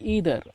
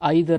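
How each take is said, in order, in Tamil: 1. முதல் உயிரெழுத்து 'ee' போல ஒலிக்கிறது. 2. முதல் உயிரெழுத்து 'eye' போல ஒலிக்கிறது. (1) "இல்லை ஈதர் அப்படின்னு கூட உச்சரிங்க" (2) "ஐதர் அப்படின்னு உச்சரிங்க"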